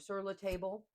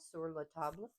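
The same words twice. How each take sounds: First: The name is said with an English accent. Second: The name is said with a French accent. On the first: "no French accent" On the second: "French accent"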